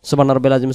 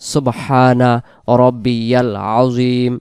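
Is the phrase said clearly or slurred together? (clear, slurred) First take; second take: slurred; clear. First: The syllables are run together and vowels dropped. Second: Every syllable is pronounced fully and distinctly. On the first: The speaker calls it wrong. "উচ্চারণ যেন এমন হয় ... কি বলি নিজে বুঝি না" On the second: The speaker calls it right. "স্পষ্ট করে বলবো"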